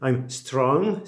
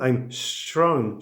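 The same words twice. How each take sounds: First: The s is made with the tongue touching the teeth. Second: The s is made with the tongue behind the teeth. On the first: The speaker calls it wrong. "Don't say" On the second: The speaker calls it right.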